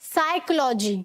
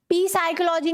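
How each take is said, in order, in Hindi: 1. इस शब्द की शुरुआत s की आवाज़ से होती है। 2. इस शब्द की शुरुआत बोले जाने वाले p से होती है। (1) "एस से पहले वाला पी भी साइलेंट होता है" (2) "पी साइकोलॉजी नहीं होता"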